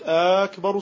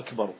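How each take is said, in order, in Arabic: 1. تبدأ بحركة طويلة ممدودة. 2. تبدأ بهمزة قطع وحركة قصيرة. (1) "إذا قلت أكبر صارت استفهاما" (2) "طبعا بقطع الهمزة"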